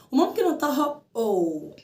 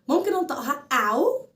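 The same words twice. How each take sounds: First: "أو" said as oh in snow; long O. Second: "أو" said as ow in cow; "ow" diphthong. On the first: Teacher gives second sound of O W, "أو" as in snow. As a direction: round "أو" into a long O. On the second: Teacher gives first sound of O W, "أو" as in cow. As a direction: glide "أو" from ah to oo. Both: Shown as a demonstration. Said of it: "ليها صوتين".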